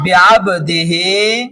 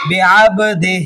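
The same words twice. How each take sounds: First: बिअब्दिही slow, with a long final "hee"; बिअब्दिही as read without stopping; full vowel ending. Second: बिअब्दिही cut to "bi-abdih", final vowel dropped; बिअब्दिही ending "-dih", no long "hee"; pausal sakin ending. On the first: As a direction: recite बिअब्दिही through to a stretched "-hee". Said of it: "खड़ी देर है". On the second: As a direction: stop बिअब्दिही on a bare "h". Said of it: "इसको भी साकिन कर देंगे". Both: Shown as a demonstration.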